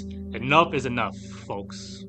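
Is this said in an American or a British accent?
American. It is said in the speaker's ordinary American accent.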